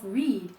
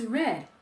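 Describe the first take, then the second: First: The vowel is long, rhyming with need. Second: The vowel is short, rhyming with bed. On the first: It is the present tense form. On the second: It is the past tense form. "The past tense of read is read"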